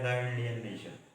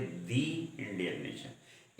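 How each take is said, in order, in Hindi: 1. 'The' को छोटे 'thuh' स्वर के साथ बोला जाता है। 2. 'The' को लंबे 'thee' स्वर के साथ बोला जाता है। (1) "आमतौर पर लोग बोलते हैं" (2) "वास्तव में होना चाहिए"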